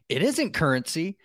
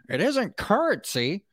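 First: It is read in the speaker's normal voice. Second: It is read in an exaggerated put-on voice.

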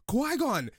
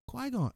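First: It is said with strong surprise and excitement. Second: It is said flatly, in a monotone. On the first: How the speaker expected the reunion to sound. The speaker calls it right. "I expected a little bit more surprise, like shock and awe" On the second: How the character actually reacted. The speaker calls it wrong. "Like it was so monotone"

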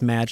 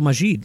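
First: The name is said as Madge. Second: The name is said as Majid. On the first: The speaker calls it right. "no, it's just Madge" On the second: The speaker calls it wrong. "I was like calling him. I was like, so Majid"

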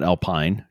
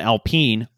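First: The name is said with an English pronunciation. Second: The name is said with a French pronunciation. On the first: The speaker calls it wrong. "not Alpine" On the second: The speaker calls it right. "because French"

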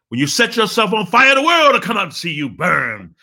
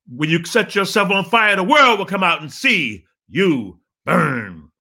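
First: It is said loud and fast. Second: It is said loud and slowly.

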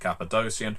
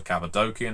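First: The c before the ending sounds like s. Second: The c before the ending sounds like k. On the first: "I know most people say Cappadocian" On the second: "there's no soft C in the Greek"

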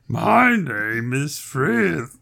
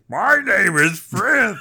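First: It is said in a sexy giant voice. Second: It is said in a big giant voice.

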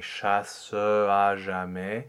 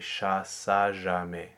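First: The final schwa is pronounced before the vowel. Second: The final schwa is dropped before the vowel. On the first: The speaker calls it wrong. "instead of saying" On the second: The speaker calls it right. "it will be considered more elegant to say"

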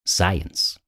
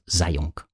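First: The name sounds like the word science. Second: The name sounds like zayunk, read as spelled. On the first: The speaker calls it right. "you're supposed to pronounce his name Science" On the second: The speaker calls it wrong. "not Zayunk, which is how you would sort of pronounce it if you just read it"

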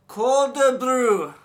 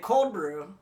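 First: It is said in a put-on Japanese accent. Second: It is said in the speaker's usual accent. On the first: The barista understands the order. The speaker calls it right. "I put on my, like, accent" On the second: The barista does not understand the order. The speaker calls it wrong. "So I'll do it the way I normally do"

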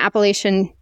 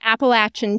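First: The word has the northern pronunciation. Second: The word has the southern pronunciation. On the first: The speaker calls it wrong. "See, I just did it again" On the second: The speaker calls it right. "I'm going to say it the southern way"

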